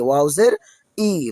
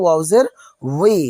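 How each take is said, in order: First: The final syllable is a plain 'ee' sound. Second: The final syllable starts with a 'w' sound. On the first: The speaker calls it wrong. "কেউ অনেকেই বলে ফেলেন ওয়াউজের ই। ... দুটাই কিন্তু এক হয়ে যাবে।" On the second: The speaker calls it right. "তাহলে আমরা ওয়াউজের কি বলবো?"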